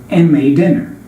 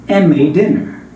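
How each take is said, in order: The two takes are said the same way.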